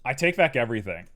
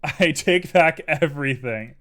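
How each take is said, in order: First: Said in the usual way. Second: Slow, louder, laughing. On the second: Real, not acted. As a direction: laugh while taking it back.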